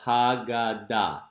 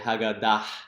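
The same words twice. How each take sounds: First: The word ends on a vowel with no h. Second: The word ends with an audible h sound. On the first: The speaker calls it right. "the hey is silent" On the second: The speaker calls it wrong. "You wouldn't say Haggadah"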